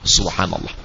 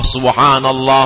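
First: It is said very quietly, almost under the breath. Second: It is said aloud with a strong, raised voice. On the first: It is meant only for oneself to hear. "dibaca dengan sir, kita saja yang mendengarnya, hamsah, hanya sampai ke pangkal telinga" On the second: It is recited openly for others to hear. "dibaca dengan jahar, dengan menguatkan suara"

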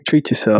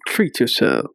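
First: It is said flatly, without much force. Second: It is said forcefully, with power.

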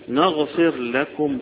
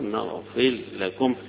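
First: The r is pronounced separately before the l. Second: The r is merged into the following l.

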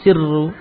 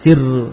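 First: The r sound is held long and doubled. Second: The r sound is short and single. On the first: The speaker calls it wrong. "jangan ditasydid" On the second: The speaker calls it right. "jangan panjang afwan jangan ditasydid siru"

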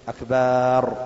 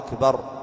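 First: The vowel after the b is drawn out. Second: The vowel after the b is short. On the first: It means drums. The speaker calls it wrong. "ولا يمد الباء فيقول أكبر، هذا يحصل من الكثير" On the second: It means greatest. The speaker calls it right. "أن يبينها"

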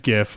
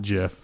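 First: It begins with a hard G sound. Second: It begins with a soft J sound. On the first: The speaker calls it right. "like a G, not like a J" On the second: The speaker calls it wrong. "not JIF"

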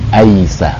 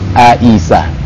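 First: A and I are joined by a y glide. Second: A and I are kept clearly separate. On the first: This is the Indonesian way of saying it. The speaker calls it wrong. "antara A sama I itu ada Y" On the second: This is the proper Arabic way of saying it. The speaker calls it right. "A sama I seharusnya dibaca AI"

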